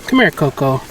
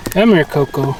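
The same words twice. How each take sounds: The two takes are said the same way.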